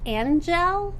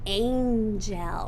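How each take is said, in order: First: The first vowel is a short a sound. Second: The first vowel is a long a sound. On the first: The speaker calls it wrong. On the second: The speaker calls it right.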